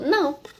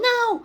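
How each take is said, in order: First: It is said calmly and plainly. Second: It is said intensely, with strong emotion.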